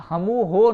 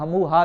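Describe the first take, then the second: First: "ہمو ہو" with a long o ending. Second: "ہمو ہا" with a long open a ending. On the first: Teacher quizzing students on the form not used, "ہمو ہو" ending in "ho". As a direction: end "ہمو ہو" on a round "ho". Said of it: "نہیں آپ نے کہا". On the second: Teacher quoting the form that was used, "ہمو ہا" ending in "haa". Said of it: "کہہ دیا". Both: Shown as a demonstration.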